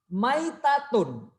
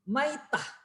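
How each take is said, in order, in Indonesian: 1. Kata ini berakhir dengan akhiran -tun penuh. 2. Kata ini berakhir lembut dengan bunyi h.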